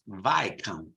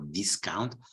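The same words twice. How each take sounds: First: The S sound is left silent. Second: The S sound is clearly pronounced. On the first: The speaker calls it right. "So there is a silent S" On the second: The speaker calls it wrong. "not Viscount"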